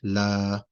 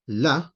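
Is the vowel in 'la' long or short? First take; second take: long; short. First: The vowel is held for two long counts. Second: The vowel is held for one short count. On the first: It means no. The speaker calls it right. "make your la's at least two counts" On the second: It does not mean no. The speaker calls it wrong. "just la with a fatha, one count, that doesn't mean no"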